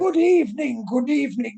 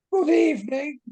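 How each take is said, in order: First: A hint of a flamboyant British host; posh British accent. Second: Bright posh British Good evening; lightly played flamboyant British millionaire; posh British accent. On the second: Professor greets the guests in a bright posh British voice. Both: Shown as a demonstration. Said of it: "bright, blessed sort of voice".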